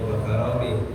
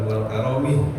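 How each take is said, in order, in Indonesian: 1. Diucapkan tanpa L sebelum 'karomi'. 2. Diucapkan dengan L sebelum 'karomi'. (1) "Jadi bacanya wakaromi" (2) "bukan wal karomi"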